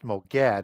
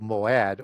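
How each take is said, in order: First: A g sound is heard in the middle. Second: No g sound is heard in the middle. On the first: The speaker calls it wrong. "it's not pronounced Moged" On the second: The speaker calls it right. "that G is silenced"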